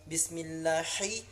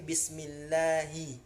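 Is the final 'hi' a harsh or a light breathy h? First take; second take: harsh; light. First: The final h is harsh and strongly pressed. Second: The final h is light, from the throat. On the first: The speaker calls it wrong. "bukan ha pedas" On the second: The speaker calls it right. "ha pangkal tenggorokan ya"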